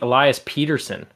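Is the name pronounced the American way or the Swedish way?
American. The name is given an Americanized pronunciation. This is the form the player himself prefers. "no, I kind of like"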